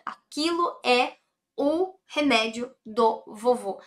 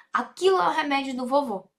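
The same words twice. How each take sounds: First: Aquilo é o remédio do vovô said slowly, word by word; deliberate teacher pacing; slow, careful translation. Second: Aquilo é o remédio do vovô rattled off fast; brisk everyday pace; quick repeat. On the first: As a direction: spell out the sentence for the student. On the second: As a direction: run through it quickly in one breath. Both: Shown as a demonstration. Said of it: "translation said twice".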